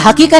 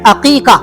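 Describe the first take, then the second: First: The word begins with an h sound. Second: The word begins with a vowel sound. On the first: The speaker calls it wrong. "ये हकीका नहीं है जनाब" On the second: The speaker calls it right. "क्या है? अकीका।"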